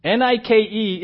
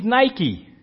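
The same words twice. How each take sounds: First: Nike said NEE-kay; Greek pronunciation. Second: Nike said NY-kee; English brand pronunciation. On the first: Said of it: "is pronounced in the Greek". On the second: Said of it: "you would say". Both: Shown as a demonstration.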